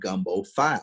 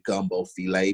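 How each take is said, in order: First: The last word is said as one syllable. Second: The last word is said as two syllables. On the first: The speaker calls it wrong. "some people may pronounce it gumbo file because it's spelled F I L E" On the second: The speaker calls it right. "so it's actually gumbo filet"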